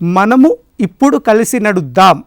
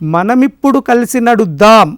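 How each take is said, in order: First: The first two words are said apart. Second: The first two words merge into one word. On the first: "ఇలా పలికిన దానికంటే" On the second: "ఒకే పదంగా పలికితే సౌకర్యంగా ఉంటుంది"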